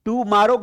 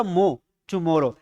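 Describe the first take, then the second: First: "tomorrow" said with an open a sound, tu-MAA-ro; wrong "tomorrow". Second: "मो, tomorrow" said slowly, the मो syllable first, then tu-MO-ro; correct "tomorrow". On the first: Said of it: "tomorrow गलत है". ("tomorrow" को गलत तरीके से "टुमारो" बोलना) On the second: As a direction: stretch "tomorrow" slowly as tu-mo-ro, stressing मो. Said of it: "मो बोलो इसको". ("tomorrow" को धीरे से "टुमोरो" बोलना, मो पर ज़ोर) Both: Shown as a demonstration.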